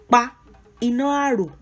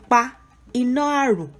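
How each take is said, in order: Both takes have the same delivery.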